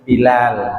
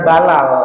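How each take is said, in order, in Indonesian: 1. Suku kata pertama memakai vokal i. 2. Suku kata pertama memakai vokal a. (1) "tapi Bilal" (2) "Bukan Balal"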